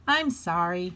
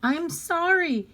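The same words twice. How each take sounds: First: Said in the usual way. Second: Put-on high-pitched, upset child's apology; crying out apology. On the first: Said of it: "said Harriet". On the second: A narrator's reading. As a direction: cry it out as a sorry little girl. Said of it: "Harriet cried".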